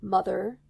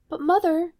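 First: Low and dangerous. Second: High, loud plea; pleading daughter. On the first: A narrator's reading. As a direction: warn her, low and cold. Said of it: "low and dangerous". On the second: Acted. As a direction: call out to Mother, worried. Rapunzel pleads with Mother.

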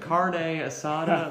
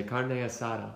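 First: "Carne asada" drawn out as "car-nay asada", questioning; slow, high, mock American "Carne asada"; laughing, overdone "Carne asada" with American R; exaggerated Anglicized version. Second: Put-on "Carne asada" with a light Spanish accent; slight put-on Spanish accent on "Carne asada". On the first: Shown as a demonstration. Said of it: "What am I supposed to say?". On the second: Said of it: "I also start to talk in that accent".

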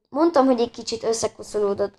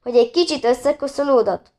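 First: Mildly guilty, understated admission. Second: Higher, mildly disgusted echo question; grimacing disbelief. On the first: Leo owns up about the dirty tent, mildly guilty. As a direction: own up meekly, without much force. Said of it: "szólalt meg Leo bűntudatosan". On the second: Annika echoes Leo's excuse about the tent, mildly disgusted. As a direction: throw it back in disgusted disbelief. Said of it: "fintorgott Annika". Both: A narrator's reading.

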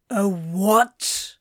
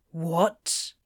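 First: Startled disbelief. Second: Low, short sleepy question; groggy bafflement. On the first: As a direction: blurt it louder, jolted from grogginess. Crowley startled nearly upright by safe word. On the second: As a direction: ask it low, barely awake. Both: A narrator's reading.

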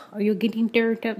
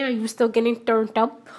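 First: Lightly put-on Spanish accent; a hint of mock Spanish accent; fake Spanish accent. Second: Said in the usual way. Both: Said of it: "That's my fake Spanish accent".

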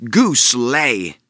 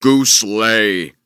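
First: Jack's command. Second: Giant's order. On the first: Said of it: "he commanded". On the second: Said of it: "the giant ordered". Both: Acted.

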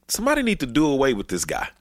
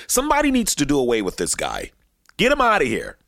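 First: Said in the usual way. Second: Heated African American accent. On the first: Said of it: "I don't wanna sound too black". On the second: Shown as a demonstration. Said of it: "I don't wanna sound too black when I say this".

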